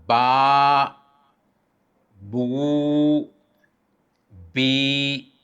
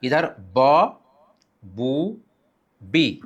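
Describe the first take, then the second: First: बा, बू, बी drawn out long; long vowels. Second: ब, बू, बी kept short; quick short syllables; short vowels. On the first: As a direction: hold each vowel long. (लंबी हरकत, खींचकर) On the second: (छोटी हरकत) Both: Shown as a demonstration. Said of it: "दोनों में हमें फ़र्क करना होता है".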